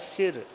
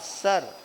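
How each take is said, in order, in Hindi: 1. स्वर छोटी 'i' की आवाज़ है। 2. स्वर 'er' की आवाज़ है, जैसे अंग्रेज़ी के sir में। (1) "अगर हम इसको हिंदी में प्रोनाउंस करें तो सिर बनता है" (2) "इंग्लिश में सर"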